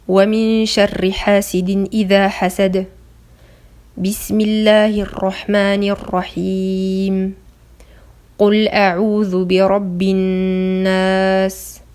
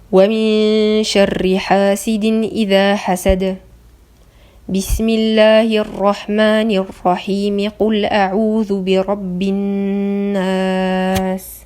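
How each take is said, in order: First: There is a pause at both junctions. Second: There is a pause only at the first junction. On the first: "il y a un arrêt entre chaque partie" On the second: "il y a un arrêt entre le dernier verset de Sourate Al-Falaq et Al-Basmala, mais il y a une liaison"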